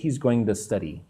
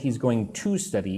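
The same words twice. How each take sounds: First: The word 'to' is reduced to a weak 'tuh'. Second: The word 'to' is said fully and clearly. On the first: The speaker calls it right. "I say he's going to study, like the" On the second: The speaker calls it wrong. "I don't say he's going to study English"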